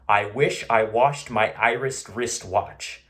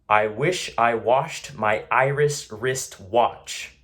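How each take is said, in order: First: It is said very quickly but still clearly. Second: It is said at a normal, everyday speed. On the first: "as fast as I can, but still enunciate" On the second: "I'll say it normally"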